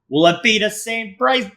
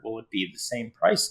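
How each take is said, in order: First: It is said in a Boston accent. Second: It is said in a standard accent.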